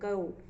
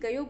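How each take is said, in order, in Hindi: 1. शब्द का अंत सादे 'o' की आवाज़ से होता है। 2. शब्द का अंत 'yo' की आवाज़ से होता है। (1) "यो जो है ओ में आ जाता है" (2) "यह ब्रज का भाषा है"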